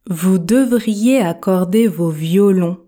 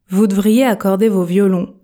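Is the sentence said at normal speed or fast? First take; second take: normal; fast. First: It is said at a normal, careful speed. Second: It is said quickly, with devriez contracted.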